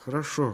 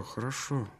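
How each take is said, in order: First: Said in the usual way. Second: The word dropped much softer, trailing away; softly. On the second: Acted. Girl soothing the excited dreamer, fading softer. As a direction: let the word fade to almost nothing.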